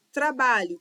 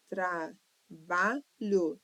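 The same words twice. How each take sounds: First: Said in the usual way. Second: Trabalho sílaba por sílaba. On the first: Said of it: "tem três sílabas". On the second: Shown as a demonstration. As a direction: split trabalho into three slow syllables. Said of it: "três sílabas". (trabalho silabado, devagar)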